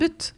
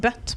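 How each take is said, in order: First: The vowel is the Norwegian u sound. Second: The vowel sounds like English 'butt'. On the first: The speaker calls it right. "men butt" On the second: The speaker calls it wrong. "Det er ikke noe bøtt"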